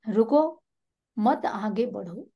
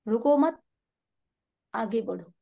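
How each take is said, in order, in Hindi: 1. विराम 'ruko' के ठीक बाद आता है। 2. विराम 'ruko mat' के ठीक बाद आता है। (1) "पहले में दिया रुको में" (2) "हमने विराम दिया रुको मत के बाद"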